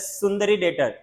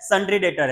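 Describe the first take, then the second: First: The first word is said with three syllables. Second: The first word is said with two syllables. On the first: The speaker calls it wrong. "कुछ लोग इसको pronounce करते हैं सुंदरी debtor" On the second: The speaker calls it right. "सन्ड्री debtor है"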